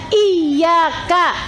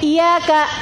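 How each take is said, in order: First: The y is doubled and held. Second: The y is short and single. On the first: The speaker calls it right. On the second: The speaker calls it wrong. "nggak boleh"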